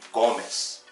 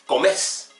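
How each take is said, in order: First: The stress is on the first syllable. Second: The stress is on the last syllable. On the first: This is the tú form. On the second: This is the vos form.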